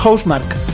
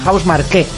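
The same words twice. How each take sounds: First: The name is pronounced in an English way. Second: The name is pronounced in a French way. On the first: The speaker calls it wrong. "Creo que no es inglés" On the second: The speaker calls it right. "Es francés"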